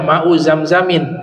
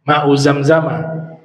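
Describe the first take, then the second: First: The last word ends in an -in. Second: The last word ends in a plain -a. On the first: The speaker calls it wrong. "jangan dibaca ma'u zamzamin" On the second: The speaker calls it right. "Zamzam dibacanya tidak tanwin, ya, makanya dibaca fathah tuh"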